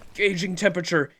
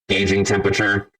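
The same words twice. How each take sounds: First: It is said in a normal voice. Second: It is said in a robot voice.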